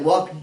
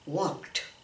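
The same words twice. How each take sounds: First: The word ends with a 'd' sound. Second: The word ends with a 't' sound. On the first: The speaker calls it wrong. "we don't say walked. It doesn't have the D sound" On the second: The speaker calls it right. "Make it sound like a T"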